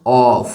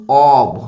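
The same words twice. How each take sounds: First: "of" said as "off", with a hissed f ending; pronunciation of "off". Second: "of" drawn out, ending in a voiced b/v sound; pronunciation of "of". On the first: Teacher showing double-F sound, "of" pronounced "off". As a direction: say "of" as "awff", long and unvoiced at the end. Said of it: "O double F লিখবো". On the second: Teacher showing how OF is pronounced, "of" with voiced ending. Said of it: "এইটার উচ্চারণ কিন্তু". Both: Shown as a demonstration.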